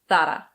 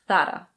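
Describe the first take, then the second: First: It is said with a Spanish pronunciation. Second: The same.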